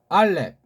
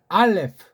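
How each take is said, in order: First: It is said in a short, clipped reading. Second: It is said in the usual Western reading. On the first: The speaker calls it right. "우리 정음으로 된 배달결이라서 최고의 소리로 이 이름을 붙여본 거예요" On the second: The speaker calls it wrong. "서양 애들이 보통 하는 거"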